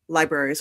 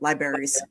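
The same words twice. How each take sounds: First: It is said in a general American accent. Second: It is said in a Pennsylvania accent.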